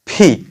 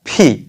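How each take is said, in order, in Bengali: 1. "p" এ জোরালো বাতাসের ঝলক আছে। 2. "p" এ জোরালো বাতাসের ঝলক আছে।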